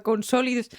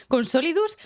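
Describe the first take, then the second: First: Said in the usual way. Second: Solidus louder, higher, rising; stress on Solidus. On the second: Real, not acted. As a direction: repeat Solidus with indignant emphasis. (Solidus recalcado con subida)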